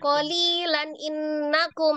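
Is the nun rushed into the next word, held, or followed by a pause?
rushed. The nun runs quickly into the next word. "cepat loncat"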